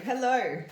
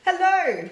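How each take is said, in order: First: Said in the usual way. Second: A louder, higher hello to get through the line; loud phone hello. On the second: Real, not acted. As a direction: call out hello to check the line. Greeting caller on the phone.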